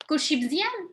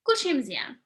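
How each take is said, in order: First: It is said with a questioning tune. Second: It is said with a statement tune. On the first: Asking whether everything is fine. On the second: Answering that everything is fine.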